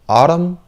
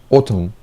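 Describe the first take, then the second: First: It is said in an American accent. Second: It is said in a British accent. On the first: "U S" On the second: "U K"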